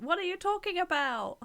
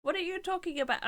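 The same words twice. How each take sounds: First: Much higher, louder outraged question; indignant disbelief. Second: Higher, louder outraged repeat; indignant repeat. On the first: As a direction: demand an answer, offended. Indignant at chat comment. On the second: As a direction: say it again, still offended. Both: Real, not acted.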